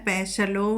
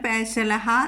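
First: The word ends with a long o vowel. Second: The word ends with a breathy ha sound.

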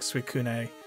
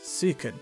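First: The final E is sounded as a vowel. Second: The final E is silent. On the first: The speaker calls it wrong. "I think I was pronouncing the E last week when I said it, like Suicune" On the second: The speaker calls it right. "No, it's Suicune"

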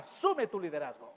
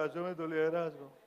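First: It is said forcefully, with energy and authority. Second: It is said flatly, like a droning prayer.

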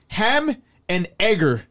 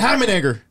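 First: The phrase is said slowly, words kept apart. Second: The phrase is said fast, words run together. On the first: "what is he trying to say?" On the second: "Say it fast. ... It doesn't sound right fast"

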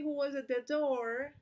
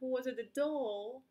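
First: The r at the end of door is pronounced. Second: The r at the end of door is dropped. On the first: "they wouldn't say who was at the door" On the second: "No van a hacer la R aquí"

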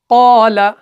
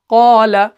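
The two takes are said the same way.

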